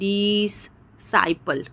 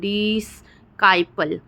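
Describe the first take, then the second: First: Two separate s sounds with a break between. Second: A k sound follows the s. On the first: "हम ऐसा नहीं बोल रहे हैं" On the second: "हम ऐसा नहीं बोल रहे हैं"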